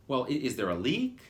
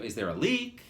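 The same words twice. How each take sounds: First: A touch of irritation, slightly louder; annoyed. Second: Mock irritated question, slightly louder; repeating the receptionist's inflection to the audience; annoyed. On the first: Retold or imitated. Mildly annoyed receptionist asking about a leak. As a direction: receptionist impatient with a caller's vague question. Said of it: "that was the inflection". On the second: Imitating her annoyed tone. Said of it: "she was pissed".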